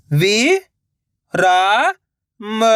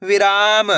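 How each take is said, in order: First: "वि", "रा", "म" each alone with pauses; syllable by syllable. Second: "विराम" joined up, long "रा"; blended word. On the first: Teacher breaking the word up for learners, syllable by syllable. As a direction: sound out "वि … रा … म", holding the first two. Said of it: "direct मात्रा का उच्चारण करके". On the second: Teacher showing what the syllables make, "विराम" as one word. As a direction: run the sounds together as "विराम", no gaps. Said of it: "तो मिलके बन जाएगा". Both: Shown as a demonstration.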